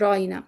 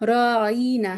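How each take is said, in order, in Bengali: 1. ain-এর পরের স্বরটি ছোট রাখা হয়। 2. ain-এর পরের স্বরটি টেনে বলা হয়। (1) "এটা হচ্ছে রাইনা" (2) "একটু বিকৃত করে বলত রাইনা, ওই আইনের পরে একটা মাদ একটু টান দিত"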